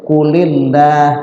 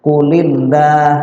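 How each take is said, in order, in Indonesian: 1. Huruf L di Allah terdengar tipis dan ringan. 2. Huruf L di Allah terdengar tipis dan ringan.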